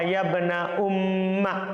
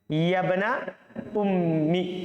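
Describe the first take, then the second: First: The last word ends in an 'a' vowel. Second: The last word ends in an 'i' vowel. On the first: "di fathah" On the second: "di kasroh"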